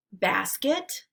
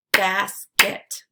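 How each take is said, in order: First: Said in the usual way. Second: "Basket" as two separate beats, Bas – ket; syllables split apart. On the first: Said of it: "repeat the word". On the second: Shown as a demonstration. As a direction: say "Basket" syllable by syllable, pausing between. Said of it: "break it into the syllables".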